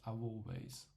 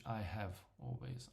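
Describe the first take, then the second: First: The word have is contracted to ve. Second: The word have is said in full.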